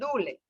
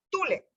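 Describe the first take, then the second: First: The word starts with a soft D sound. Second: The word starts with a hard T sound. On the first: The speaker calls it right. "con mucho cariño, suave" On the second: The speaker calls it wrong. "mal pronunciado en el libro, nosotros no hablamos así"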